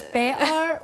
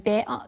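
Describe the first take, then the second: First: Better with a glottal stop, no tongue tap. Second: Better with a tapped t from the middle of the tongue. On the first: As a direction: say better slowly, swallowing the t. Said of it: "better's not using the tongue at all". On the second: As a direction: tap the t in better with mid tongue. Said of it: "better is using the middle of the tongue". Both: Shown as a demonstration.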